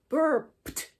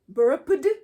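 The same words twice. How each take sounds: First: The ending is pronounced as a t sound. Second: The ending is pronounced as a d sound. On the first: The speaker calls it right. "because there's a p in it" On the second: The speaker calls it wrong. "try to pronounce this with a D sound"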